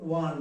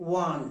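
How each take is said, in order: Both takes have the same delivery.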